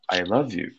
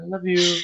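First: It is said earnestly, with deep feeling. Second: It is said casually, as a joke.

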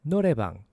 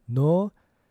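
First: It is said a little faster. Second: It is said at a slower, normal pace.

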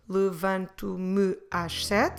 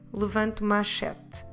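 First: It is said slowly, me and às kept apart. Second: It is said quickly, me and às run together.

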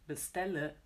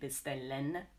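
First: The word ends in a weak 'uh' sound. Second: The word ends in a full 'en' sound. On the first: The speaker calls it right. "but we say bestelle. This ö" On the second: The speaker calls it wrong. "we don't really say bestellen"

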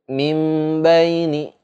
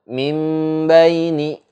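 No difference in how they are said.

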